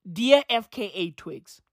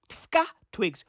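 First: "F K A" said letter by letter; spelled-out initials. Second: "F K A" run together as one word, "fkah"; initials as a word. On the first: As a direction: say "F K A" as three separate letters, eff-kay-ay. Name spelt out, then said as word. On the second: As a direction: pronounce "F K A" like a single word, not letters. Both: Real, not acted.

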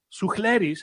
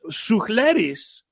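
First: Suchleris said quickly and softer, tossed off; a quick, casual Suchleris; quick name pronunciation. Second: Suchleris said slowly, spelling out each syllable; careful name pronunciation. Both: Shown as a demonstration. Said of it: "however you wanna say it".

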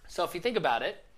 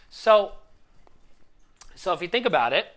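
First: Said in the usual way. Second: Louder, pushing hard on the point; getting carried away with emotion; worked up. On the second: Real, not acted. Coach telling the viewers a client's story, worked up. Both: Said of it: "sorry, I'm getting worked up".

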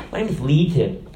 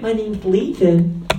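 First: Sweet. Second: Slow, high-pitched effeminate put-on voice. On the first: Acted. Demon introducing itself to Jesus, all sweet. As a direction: say it as a mock-sweet little demon. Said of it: "all sweet". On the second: Demon telling Jesus its name, effeminate. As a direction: draw it out in a mock effeminate lilt. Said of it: "He might have talked all effeminate".

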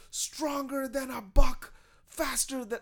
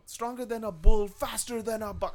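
First: Chanted, high, loud, very slow; botched wrestler chant; The Rock chant. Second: The corrected chant to the crowd; hammed-up heel chant; The Rock chant. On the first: Retold or imitated. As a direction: chant it at the crowd. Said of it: "he's just like".

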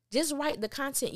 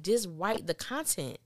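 First: "Just write the content" pitched much higher, rising with a push on "Just"; emphatic plea. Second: Said in the usual way. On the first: Real, not acted. Fan begging the writer, "Just" much higher and rising. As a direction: plead with the writer, leaning on "Just".

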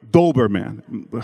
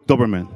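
First: Doberman drawn out with a long "oh"; slow, loud "Doberman", full last syllable; careful pronunciation. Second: Doberman said short and loud; a short, punched "Doberman"; trying the pronunciation. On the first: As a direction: say "DOH-ber-man" slowly and loudly. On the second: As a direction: say "Doberman" quickly, first vowel short. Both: Shown as a demonstration. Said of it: "Help me with my accent".

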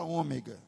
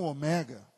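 First: "ômega" with stress on the first syllable, Ô-mega. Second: "omega" with stress on the middle syllable, o-ME-ga. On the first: Pastor teaching the church, saying "ômega" with first-syllable stress. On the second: Pastor explaining the Greek, "omega" stressed on ME. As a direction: say "omega" with the weight on ME. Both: Shown as a demonstration. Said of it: "vou falar ômega e não omega".

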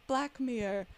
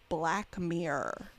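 First: Imitating a flatmate's German accent, a little higher; mock German accent, trying to be understood by a voice remote; lightly put-on German accent; thick German accent. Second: Slow, lower, generically American voice; drawn-out generic American accent. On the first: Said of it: "very thick German accent". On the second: Retold or imitated. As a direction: say it slowly in a plain American accent for voice control. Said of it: "generically American accent".

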